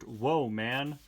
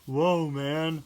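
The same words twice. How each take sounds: First: It is said in a plain, ordinary voice. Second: It is said in a put-on character voice. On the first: "the only part of this page I don't read in the Fillmore voice" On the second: "I'm sorry"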